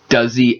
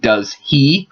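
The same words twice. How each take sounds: First: The words blend into one word, dropping the H. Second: The two words are said separately, with the H.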